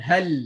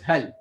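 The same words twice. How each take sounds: First: The final l sound is stretched out long. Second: The final l sound is short and unstretched. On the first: The speaker calls it wrong. "I'm just stretching it so we can hear it" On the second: The speaker calls it right. "So otherwise, just hal"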